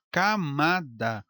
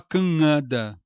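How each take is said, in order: First: "camada" com M pleno, ca-ma-da; pronúncia correta. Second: "canada" com nasal no lugar do M, cã-ada; pronúncia errada. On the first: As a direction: silabe "camada" marcando o M. ("camada" com o M claro de consoante) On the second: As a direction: engula o M de "canada", deixando só a vogal nasal. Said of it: "Você não fala canada". ("canada" como camada sem consoante M) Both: Shown as a demonstration.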